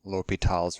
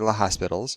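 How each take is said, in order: First: It is said without an s sound before t. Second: It is said with an s sound before t. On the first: The speaker calls it right. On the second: The speaker calls it wrong.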